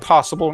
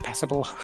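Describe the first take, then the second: First: It is said in a southern English accent. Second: It is said in a northern English accent. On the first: "I'd say passable now" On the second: "twenty years ago, I'd have said passable"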